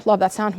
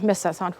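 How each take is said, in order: First: Said in the usual way. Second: Much softer and lower, trailing away; a soft, nostalgic sigh of a line; wistful hush. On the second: Real, not acted. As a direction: let it drop to almost nothing.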